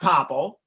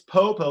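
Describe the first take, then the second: First: The first syllable has a short 'pop' vowel. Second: The first syllable has a long 'Poe' vowel. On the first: The speaker calls it wrong. "it's not Popple" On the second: The speaker calls it right. "like Edgar Allan Poe took a pill"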